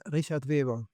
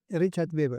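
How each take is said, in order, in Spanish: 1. El nombre se pronuncia con sonidos alemanes. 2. El nombre se pronuncia con sonidos españoles. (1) "Cuando era alemán todavía se decía" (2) "y ahora que eres chileno?"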